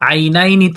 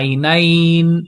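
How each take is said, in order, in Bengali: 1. শব্দটি একটি হ্রস্ব স্বরধ্বনি দিয়ে শেষ হয়। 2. শব্দটি শেষ ব্যঞ্জনধ্বনিতে থেমে যায়। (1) "আইনাইনি থেকে" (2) "নুনের উপরে সাকিন করে আইনাইন"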